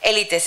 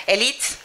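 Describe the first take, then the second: First: Élites said in full Spanish, all three syllables "é-li-tes". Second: Élites said the Portuguese way, final e dropped, like "élit"; Portuguese-style élites. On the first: Shown as a demonstration. Lecturer correcting herself: élites said fully in Spanish. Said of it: "élites se dice en portugués". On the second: Real, not acted. Lecturer slipping into Portuguese: élites said as "élit". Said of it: "por eso me sale el acento del contrario".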